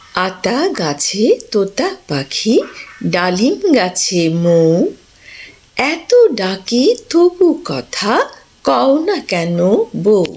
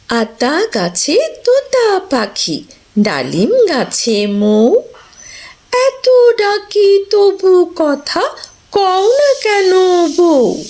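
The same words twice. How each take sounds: First: It is read in a plain, standard way. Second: It is read with lively expression.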